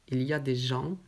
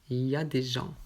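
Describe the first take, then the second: The two takes are said the same way.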